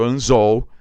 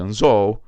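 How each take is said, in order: First: Anzol called loud with stress on zol; called as written. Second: Anzol called loud with the normal Portuguese stress on zol; natural Portuguese. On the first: Teacher calling the word the way it is written. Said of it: "o jeito que ela veio". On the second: Teacher calling the word in normal Portuguese. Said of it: "tenta pronunciar na língua portuguesa". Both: Shown as a demonstration.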